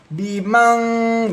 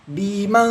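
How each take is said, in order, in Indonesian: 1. Bunyi dengungnya berlebihan dan ditahan. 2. Bunyi dengungnya tipis dan singkat. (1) "kalau lebay seperti ini, bimang, jadi kayak tertahan" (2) "Didengungkan, didengungkan tipis"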